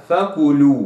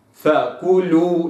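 First: فكلوا with the u leaned toward o, a slack tilt; wrong reading. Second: فكلوا slow, every letter clear, short rounded u; correct recitation. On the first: Teacher shows the mistake to avoid, tilted vowel. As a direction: mispronounce فكلوا with a tilted damma. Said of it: "لا أقرأها فكلوا". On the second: Teacher models Quran word for students, slow and exact. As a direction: say فكلوا slowly with a clean u. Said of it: "فكلوا هكذا". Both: Shown as a demonstration.

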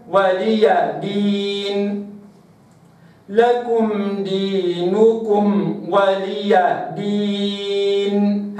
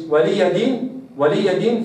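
First: ولي دين slow, open ya clear; correct slow reading. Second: ولي دين with the open ya lost; wrong reading. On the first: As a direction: draw out ولي then دين. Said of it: "هكذا". (ولي دين ببطء مع الياء المفتوحة) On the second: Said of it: "فين الياء". (ولي دين بلا ياء مفتوحة) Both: Shown as a demonstration.

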